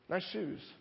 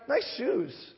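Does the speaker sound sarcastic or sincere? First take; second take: sarcastic; sincere. First: It is said mockingly, with a sneering tone. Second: It is said warmly, as a genuine compliment. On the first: The shoes are being made fun of. "Same words delivered entirely differently" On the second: The shoes are really admired. "had your day absolutely made"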